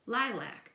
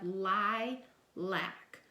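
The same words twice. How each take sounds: First: Said in the usual way. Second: Lilac stretched out slowly; slow blending. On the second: Shown as a demonstration. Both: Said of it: "put those two syllables together".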